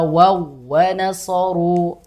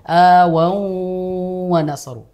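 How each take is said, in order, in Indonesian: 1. Wau yang ganda dibaca pendek, tidak dipanjangkan. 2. Bunyi sebelum w dipanjangkan. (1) "langsung saja wawunya itu ditekan seolah-olah hanya ada satu wawu tasdid" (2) "Tidak perlu ... tidak dipanjangkan seperti itu"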